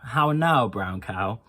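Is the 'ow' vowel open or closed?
open. The vowel is an open ow sound. "Another sound is the ow sound"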